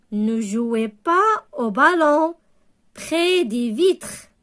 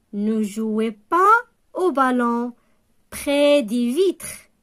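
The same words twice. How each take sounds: No difference in how they are said.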